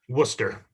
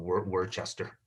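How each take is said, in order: First: The name is said as two short syllables. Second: The name is said as three spelled-out syllables. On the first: The speaker calls it right. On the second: The speaker calls it wrong.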